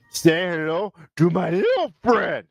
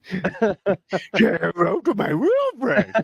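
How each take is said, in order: First: Put-on slow Scarface-style Cuban accent. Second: Put-on slow, higher Cuban accent; Tony Montana imitation. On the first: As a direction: growl it like Tony Montana. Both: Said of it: "when I do the Cuban accent".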